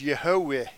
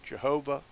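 First: The name begins with a Y sound. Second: The name begins with a J sound. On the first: "If you look that up, it's Yehovah" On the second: "Not Jehovah for the J"

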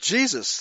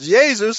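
First: It is said in the modern English way. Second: It is said the way most European languages say it. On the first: This is a recent way of saying the name. "They never pronounced it Jesus. That's a very modern designation" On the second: This is the older, widespread pronunciation. "as most European languages still pronounce it"

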